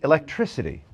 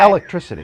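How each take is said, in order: First: The stress is on the third syllable. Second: The stress is on the first syllable. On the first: "like the the tri-" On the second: "with the accent on the first syllable"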